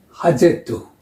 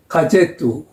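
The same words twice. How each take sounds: First: Газету starting with a breathed h, "ha-ZE-tu"; Ukrainian H sound. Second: Газету starting with a hard g/k stop, "ga-ZE-tu"; Russian hard G. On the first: Teacher contrasts it with the Russian, H pronunciation of газету. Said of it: "is pronounced H". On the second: Teacher shows the Russian letter sound, hard-stop pronunciation of газету. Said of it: "is pronounced K". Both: Shown as a demonstration.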